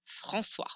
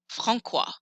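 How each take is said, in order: First: The C is pronounced softly, like an S. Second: The C is pronounced hard, like a K. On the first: The speaker calls it right. "I need that cédille to make the C sound soft" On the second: The speaker calls it wrong. "his name would be weird"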